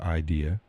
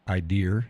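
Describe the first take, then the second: First: It ends without any R sound. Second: It ends with an added R sound. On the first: The speaker calls it right. "drop the R" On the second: The speaker calls it wrong. "we had to stop saying I dear and drop the R"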